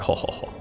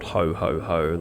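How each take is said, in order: First: It is said as a witch's cackle. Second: It is said as a jolly Santa laugh.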